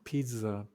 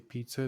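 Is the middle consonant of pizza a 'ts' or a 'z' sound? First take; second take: z; ts. First: The middle consonant is a 'z' sound. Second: The middle consonant is a 'ts' sound. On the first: The speaker calls it right. "It's like a Z sound" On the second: The speaker calls it wrong. "They don't say pizza"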